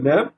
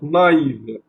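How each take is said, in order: First: The a and i merge into one vowel sound. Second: The a and i are said as separate vowels. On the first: The speaker calls it wrong. "Et non pas euh" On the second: The speaker calls it right. "ça va être lu séparément"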